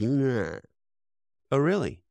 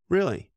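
First: Mock surprise, pitched up; sarcastic doubt. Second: Stronger sarcastic doubt. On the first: Speaker to a podcast host, mocking that cliché with a sarcastic "really?". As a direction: needle the old cliché with a raised "really?". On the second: Acted. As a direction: push the disbelief further on the second "Really?". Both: Mocking the idea people hate change.

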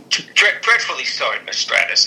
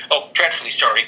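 First: Put-on half-baked British accent, stammered start; attempted Regal accent. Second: Said in the usual way. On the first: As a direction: try a British accent and stumble into it. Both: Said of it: "I'm not doing accents".

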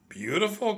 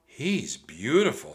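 First: "Beautiful?" cried much higher, rising in disbelief; can't believe what she just said; incredulous cry. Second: Admiring. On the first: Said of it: "cried Jack". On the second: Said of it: "said Annie". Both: A narrator's reading.

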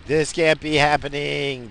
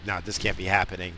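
First: Slower, louder, higher disbelief; mock disbelief. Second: Said in the usual way. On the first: Repeating his shocked reaction to the sight, slow and loud. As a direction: stretch it out as if it can't be real.

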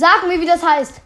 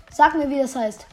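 First: Loud insistent demand. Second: Said in the usual way. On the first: Real, not acted. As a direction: shout it, demanding an answer. Demanding answer, repeated.

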